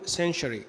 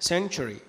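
First: "century" as sen-shree, sh replacing ch; wrong sh pronunciation. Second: "century" as sen-chree, with a full ch. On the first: Teacher imitating some people's mistake, "century" as sen-shree. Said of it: "في ناس تقول century". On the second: Teacher correcting the common mistake, "century" as sen-chree. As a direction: say "century" with a firm ch for the t. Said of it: "لا، century". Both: Shown as a demonstration.

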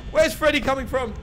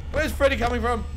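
No difference in how they are said.

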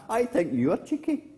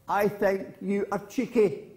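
First: High echo, lifting at the end. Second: Higher-pitched mild taunt; girl calling to hills. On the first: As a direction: answer back high like an echo. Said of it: "And the voice came back". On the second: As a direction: call it out high at the hills. Girl in story calls to hills. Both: Acted.

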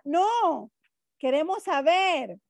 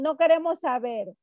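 First: Acted pupil's high NO, break, raised QUEREMOS SABER; NO set apart, QUEREMOS SABER lifted; pause after NO. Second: Acted pupils' NO QUEREMOS SABER, run together; NO QUEREMOS SABER as one quick phrase; no pause after NO. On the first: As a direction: protest with a long high NO, then QUEREMOS SABER. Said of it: "pueda que uno me diga". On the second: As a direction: refuse in one breath, NO joined to QUEREMOS. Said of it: "ustedes me dicen".

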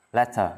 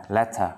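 No difference in how they are said.

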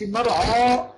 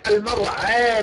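First: المرعى with a dark, open "aa" after ع; wrongly heavy ain. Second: المرعى with a thin, fronted vowel after ع; light ain. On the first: Teacher showing the mistake in المرعى, heavy ع. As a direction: thicken the ع in المرعى. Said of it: "لا، العين مرققة دائمًا". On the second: Teacher showing the right المرعى, light ع. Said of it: "العين مرققة دائمًا". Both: Shown as a demonstration.

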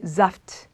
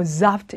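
First: Saft softer, with a light throat-voiced Z; simply voiced S. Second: Saft with an exaggerated, heavy Z buzz; overdone voiced S. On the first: Teacher shows the easy way, lightly voiced S. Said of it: "그냥 목을 울리게". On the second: Teacher shows what is unnecessary, exaggerated buzz. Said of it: "너무 심하게 뭐 saft 이렇게 하실 필요는 없고". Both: Shown as a demonstration.

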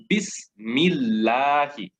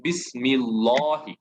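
First: বিসমিল্লাহি slow with a light thin lam and open a; বিসমিল্লাহি as bismilːahi, light lam. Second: Wrong বিসমিল্লাহি with a thick lam and dark ɔ; the wrong heavy lam in বিসমিল্লাহি. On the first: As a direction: recite বিসমিল্লাহি slowly, lam from an empty mouth. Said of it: "হবে বিসমিল্লাহি". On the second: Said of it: "not বিসমিল্লাহি, এটা হবে না". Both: Shown as a demonstration.

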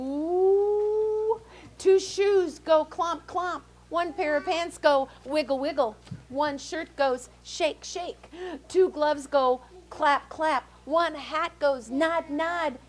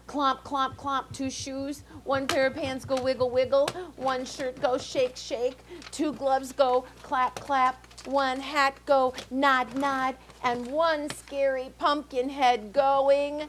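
First: High, slowed chant of the refrain; high spooky refrain. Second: Chanted, bouncing read-aloud rhythm; sing-song it like a picture book; rhythmic story refrain. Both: A narrator's reading.

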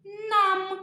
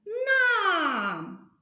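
First: «Нам» spoken once, slow and clear, as a single beat; clear syllable demo. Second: «нам» with the а stretched long and higher; stressed vowel drawn out. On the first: Teacher showing kids how to count syllables, said clearly. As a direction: say «Нам» carefully so the chin drops once. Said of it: "підставляємо ручку під підборідок". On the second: Teacher to children, showing where the stress falls, vowel stretched. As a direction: pull out the а in «нам» to show the stress. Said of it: "Який звук ми виділяємо голосом, тягнемо його?". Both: Shown as a demonstration.

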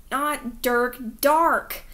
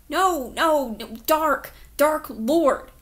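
First: "Dark" hit louder with an open "ah" vowel, not "Dirk"; name corrected. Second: "Dark" said loud and firm with a clear "ah" vowel, insisting it's not "Dirk"; insistent correction. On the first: Boy correcting the officer's wrong name, firmly. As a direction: set "Dark" apart from "Dirk", stressing it. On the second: Boy correcting the officer, loudly stressing "Dark". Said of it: "his voice came out wrong, weak and raspy". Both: Acted.

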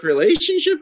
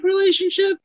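First: "relationship" lifted a little high; voice rising. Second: "relationship" squeaked way up high as a question; really high voice. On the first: Guest echoing a question about their last relationship, voice starting to rise. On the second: Guest caught out by a question about their last relationship, voice shooting really high. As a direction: send "relationship" leaping up very high. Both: Real, not acted. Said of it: "Your voice got really high".

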